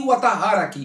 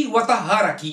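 No difference in how they are said.

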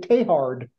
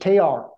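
First: The name ends with a hard D sound. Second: The name ends without a hard D sound. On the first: "they've anglicized his name and they say Teilhard with the hard D at the end" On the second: "if you listen to a French person say his name, after the T, there's no consonants"

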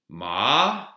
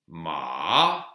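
Both takes have the same delivery.

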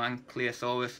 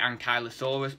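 First: It uses the British pronunciation of the word. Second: It uses the American pronunciation of the word. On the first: "I've heard a few British paleontologists call them" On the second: "a lot of Americans pronounce it Ankylosaurus"

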